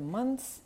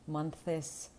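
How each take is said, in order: First: The th is dropped and only s is heard. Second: An extra vowel is inserted between th and s. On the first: The speaker calls it right. "просто забити на всі «the», «с»" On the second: The speaker calls it wrong. "не намагатися вставити голосну між «th» і «с»"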